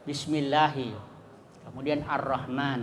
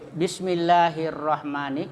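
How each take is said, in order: First: The words are split, with an 'ar' sound before Rahman. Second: The words are joined, with no 'a' or 'l' sound. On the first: "kalau dibaca berpisah maka alifnya itu dibaca fathah" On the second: "kalau dibaca itu hi hirrahmani, maka alif dan lamnya tidak dibaca"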